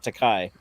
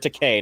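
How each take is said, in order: First: The last syllable does not rhyme with okay. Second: The last syllable rhymes with okay. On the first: This sounds like the Japanese word for expensive. The speaker calls it wrong. "not Takai" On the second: This is the name's actual pronunciation. The speaker calls it right. "It rhymes with okay"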